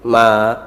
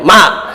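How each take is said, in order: First: It is said softly and gently. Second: It is said louder and stronger.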